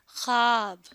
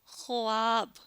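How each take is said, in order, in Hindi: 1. 'kh' के बाद 'w' की कोई आवाज़ सुनाई नहीं देती। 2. 'kh' के बाद 'w' की आवाज़ सुनाई देती है। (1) "क्या लफ्ज बोलते हैं?" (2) "अगर हम ये सारी आवाजें मिलाएं तो लफ्ज क्या बन जाता है?"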